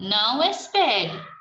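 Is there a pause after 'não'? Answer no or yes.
no. There is no pause after the first word. Telling someone not to wait. "Aí a outra"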